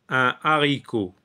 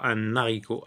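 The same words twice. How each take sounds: First: No n sound links un to haricot. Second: An n sound links un to haricot. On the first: The speaker calls it right. "Donc on dit un, un haricot" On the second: The speaker calls it wrong. "On ne dit pas"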